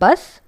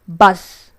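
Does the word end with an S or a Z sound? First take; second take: S; Z. First: The word ends with a hissing S sound. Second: The word ends with a buzzing Z sound. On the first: The speaker calls it wrong. "It's not bus" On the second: The speaker calls it right. "It's Z, not S"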